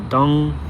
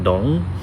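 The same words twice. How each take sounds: First: The word carries a tone other than third. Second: The word carries the dipping third tone. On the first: It means something completely different. "it can mean something completely different" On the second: It means understand. "I'm trying to follow the tone of the third tone"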